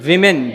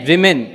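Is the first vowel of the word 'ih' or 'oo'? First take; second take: ih; ih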